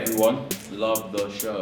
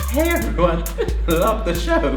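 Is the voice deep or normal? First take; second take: deep; normal. First: The voice is put on and very deep. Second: The voice is at its normal pitch.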